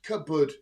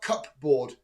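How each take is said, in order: First: The P sound is silent in the word. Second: The P sound is clearly heard in the word. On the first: This is how the speaker used to say it. The speaker calls it wrong. "I thought it was cupboard, just cupboard" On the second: This is how the speaker now believes it is said. The speaker calls it right. "not cupboard"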